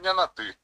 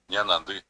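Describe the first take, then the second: First: The word ends with a plain oral 'ti'. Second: The word ends with a nasal 'ndi'. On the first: The speaker calls it wrong. "Yo puedo decir ñanati, cualquiera me va a entender... no está pronunciando correctamente" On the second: The speaker calls it right. "Va a tener que decir ñanandi"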